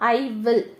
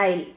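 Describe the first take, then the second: First: Both words are said fully and separately. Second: The two words merge into one short syllable. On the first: "ஐ வில் தான் எப்படி சொல்லலாம்" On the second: "ஐ அப்போஸ்டஃபி double L"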